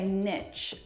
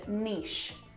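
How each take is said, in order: First: The word is said with a T sound. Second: The word is said without a T sound. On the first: "lots of people in America say niche ... add a T sound in there" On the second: "everyone outside of America says niche"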